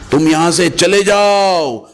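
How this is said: The stress falls on the words चले जाओ. Go far away and never be seen again. "अगर चले जाओ पे स्ट्रेस कर देता हूं"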